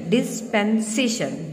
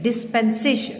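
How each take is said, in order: First: "डिस्पेंसेशन" drawn out slowly, each syllable clear; slow down on "डिस्पेंसेशन" for the class; slowly spelled out. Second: Said in the usual way. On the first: Shown as a demonstration.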